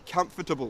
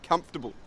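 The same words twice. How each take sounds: First: The middle 'or' syllable is fully pronounced. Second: The middle 'or' syllable is dropped. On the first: The speaker calls it wrong. "You don't say comfortable" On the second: The speaker calls it right. "If you get rid of the O R, you will say comfortable perfectly"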